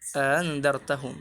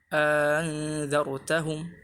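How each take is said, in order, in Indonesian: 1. Hamzah kedua dilunakkan. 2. Vokal panjang mendahului hamzah kedua yang dilunakkan. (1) "yang pertama ditahqiq, yang hamzah kedua ditashil" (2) "dimasukkan alif di antara uh, hamzah yang ditashilkan"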